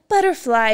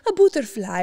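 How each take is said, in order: First: It is said in an American accent. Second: It is said in an Italian accent. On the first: "Americans like" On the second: "Italians like"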